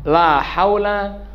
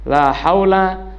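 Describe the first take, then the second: Both takes have the same delivery.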